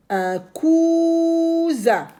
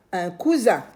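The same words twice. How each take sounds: First: Cousin much higher, slow, Z buzzed; stretched z sound. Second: Said in the usual way. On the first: Shown as a demonstration. Teacher models the word slowly. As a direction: draw out the Z in cousin.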